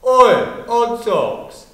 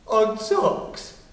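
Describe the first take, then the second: First: Loud mock shout on "Oi"; retold shout. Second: Said in the usual way. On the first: Bully calling to a child at the gate, imitated shout. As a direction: call out like a jeering bully. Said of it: "I heard someone shout".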